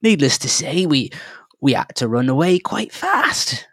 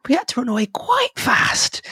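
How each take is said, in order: First: A fretful halfling, pitched up; halfling, higher. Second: High whispered repeat; hushed aside. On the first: Halfling telling the travellers how they fled, higher and jittery. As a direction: tell it like a jittery little prospector. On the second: Halfling whispering the escape to the travellers, high and hushed. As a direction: breathe it like a frightened secret. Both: Acted.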